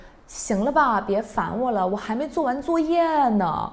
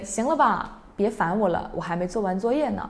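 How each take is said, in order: First: Higher, sharply annoyed reply; really annoyed. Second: Plain. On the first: Older sibling brushing off little brother, really annoyed. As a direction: snap at the pestering brother. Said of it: "that sounds really annoying". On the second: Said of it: "And you can say". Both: Shown as a demonstration.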